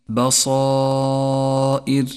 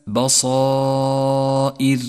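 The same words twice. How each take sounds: No difference in how they are said.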